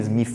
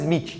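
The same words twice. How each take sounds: First: The name is said with an English pronunciation. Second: The name is said with a Brazilian Portuguese pronunciation. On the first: This is the actual name. "Mas o nome é Smith, na verdade" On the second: This is the easier local way of saying it. "No Brasil a gente fala Smith, que é mais fácil"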